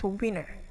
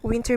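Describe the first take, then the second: First: The t sound in the middle is dropped. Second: The t sound in the middle is pronounced.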